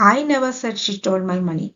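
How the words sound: The stress is on the word I. Someone else might have said it, not me. "ഇവിടെ ഐക്ക് ഞാൻ stress കൊടുത്തിരിക്കുകയാണ്"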